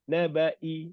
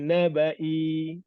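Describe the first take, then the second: First: The vowel is held for only one short beat. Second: The vowel is held for longer than one beat. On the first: The speaker calls it right. "Satu harkat saja" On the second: The speaker calls it wrong. "Bukan nabai"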